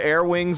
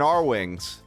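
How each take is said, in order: First: The first part sounds like the word 'air'. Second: The first part sounds like the letter 'R'. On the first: "calling them Air Wings" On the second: "and R Wings"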